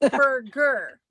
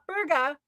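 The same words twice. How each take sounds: First: The R sounds are strong, American style. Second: The R sounds are dropped, non-American style. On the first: "Did you hit all of the R's in there?" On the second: "not burger"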